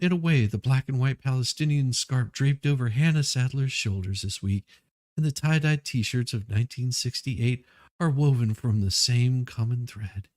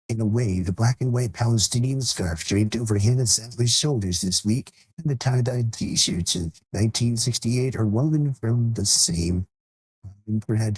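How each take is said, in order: First: It is read in his normal voice. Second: It is read in a mocking put-on voice.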